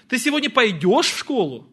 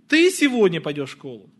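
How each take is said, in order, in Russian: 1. Ударение падает на слово «пойдешь». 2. Ударение падает на слово «ты». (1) "Пойдешь или не пойдешь?" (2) "Ты или кто-то другой?"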